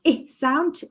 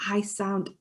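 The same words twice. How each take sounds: First: Short "I" as in igloo; short I sound. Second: Long "I" as in ice; letter "I" with its long vowel, as in iron; long I sound. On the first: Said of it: "we've got our I sound". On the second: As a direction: say "I" like eye. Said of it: "and then our I sound". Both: Shown as a demonstration.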